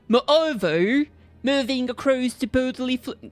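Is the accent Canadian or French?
Canadian. It is spoken in an attempted Canadian accent. "What if he's uh, Canadian?"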